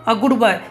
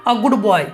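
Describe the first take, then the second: No difference in how they are said.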